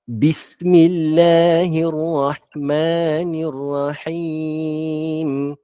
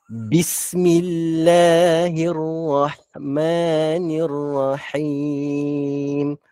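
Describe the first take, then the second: The two takes are said the same way.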